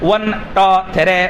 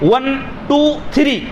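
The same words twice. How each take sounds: First: Two sounds like 'toe', three like 'thray'. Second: Two and three have their usual long vowels. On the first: The speaker calls it wrong. "अगर मैं इसको इस तरह कहूं तो सारे के सारे मजाक उड़ाएंगे।" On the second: The speaker calls it right. "ये सही तलफ्फुज है कि नहीं?"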